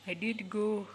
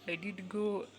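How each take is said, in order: Both takes have the same delivery.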